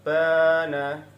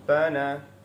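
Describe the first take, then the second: First: The vowel after b is long. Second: The vowel after b is short. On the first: "fathah diikuti alif, dibaca panjang satu ayunan" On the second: "itu tidak ada tidak ada alifnya setelah huruf ba"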